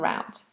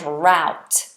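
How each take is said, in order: First: The vowel sounds like the one in 'boot'. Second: The vowel sounds like the one in 'out'. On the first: "but in British English, they're both the same" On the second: "In American, it's route and route"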